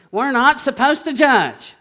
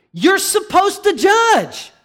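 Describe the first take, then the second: First: Weary mock quote. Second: Loud, high, slow preacher's shout; forceful rebuttal. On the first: Preacher quotes what he is tired of hearing, exasperated mimicry. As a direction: parrot the tired objection, only mildly raised. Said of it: "so tired of hearing this". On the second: Real, not acted. Preacher corrects the congregation's excuse, emphatic shout. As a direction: hammer it out, high and drawn out.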